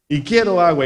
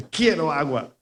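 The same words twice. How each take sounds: First: Insistent, louder quiero agua; louder demand. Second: Said in the usual way. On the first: Shown as a demonstration. Pastor acts a man demanding water at a closed fridge, louder and insistent.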